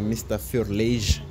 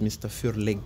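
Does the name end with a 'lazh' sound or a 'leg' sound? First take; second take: lazh; leg. First: The name ends with a soft 'lazh' sound. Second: The name ends with a hard 'leg' sound. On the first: The speaker calls it right. "il faut savoir que c'est mister Furlage" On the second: The speaker calls it wrong. "Il y a certains qui disent mister Furleg"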